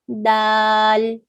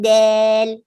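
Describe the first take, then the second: First: The vowel is a plain, normal a sound. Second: The vowel is bent toward an e sound. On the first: The speaker calls it right. "Say dal, normal" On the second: The speaker calls it wrong. "Don't say like del, del, eh. That's called taqleel, a little bit of bending of the sound"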